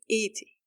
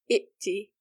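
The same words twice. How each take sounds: First: A long i vowel comes before the t. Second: A glottal stop comes before the t. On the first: The speaker calls it right. "Rather, you say iti" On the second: The speaker calls it wrong. "You don't say iti"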